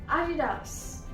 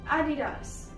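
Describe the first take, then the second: No difference in how they are said.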